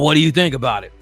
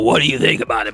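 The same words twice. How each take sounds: First: Said in a plain, gentle voice. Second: Said in a rough, gravelly smoker's voice.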